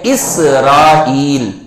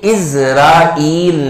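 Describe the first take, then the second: First: The middle consonant is an s sound. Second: The middle consonant is a z sound. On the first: The speaker calls it right. "ये है इसराइल" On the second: The speaker calls it wrong. "इसका जो हमारे यहां तलफ्फुज किया जा रहा है वो गलत है। ये इज़राइल नहीं है"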